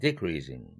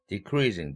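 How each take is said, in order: First: The main stress is on the prefix. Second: The stress falls on the stem, not the prefix.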